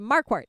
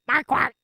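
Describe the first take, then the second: First: The first syllable carries more stress. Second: Both syllables carry equal stress. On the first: "I put a little more emphasis on the first syllable" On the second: "you've got that equal accent on both syllables"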